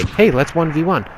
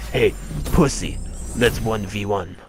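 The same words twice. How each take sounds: First: High, easygoing invitation; friendly high-pitched challenge; honest friendly invite. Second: Mock taunting challenge. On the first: Shown as a demonstration. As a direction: ask it openly, pitched up. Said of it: "be honest and stop being a fucking dickhead". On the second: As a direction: imitate an online trash-talker. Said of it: "and not be like".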